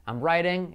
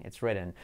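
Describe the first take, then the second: First: "writing" with an open "eye" glide; long vowel in writing. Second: "written" low and soft, short "ih"; short vowel in written. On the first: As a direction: say "I'm writing" with "rye" up front. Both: Shown as a demonstration. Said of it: "Esa es la diferencia".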